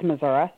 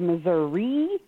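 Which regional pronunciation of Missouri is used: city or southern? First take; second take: southern; city. First: The name is said the southern rural way. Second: The name is said the big-city way. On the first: This is how people south of the big cities say it. "If you are anywhere south of Kansas City or St. Louis, it's Missouri" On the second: This is how people in the big cities say it. "They say Missouri in Kansas City and St. Louis"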